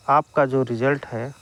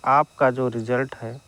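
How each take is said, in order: Both takes have the same delivery.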